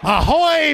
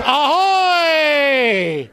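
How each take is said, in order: First: Short pirate "Ahoy" called out higher; "Ahoy" barked out like a pirate captain; pirate hail. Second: "Ahoy" drawn out long and shouted; "Ahoy" hollered across the deck, stretched out; long pirate hail. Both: Acted. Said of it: "Talk Like a Pirate Day".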